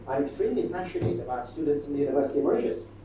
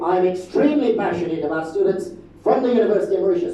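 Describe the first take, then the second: First: It is said plainly, with little vocal energy. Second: It is said with warm, lively vocal energy. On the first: The speaker calls it wrong. "I can stand here and simply say" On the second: The speaker calls it right. "Clearly the second one"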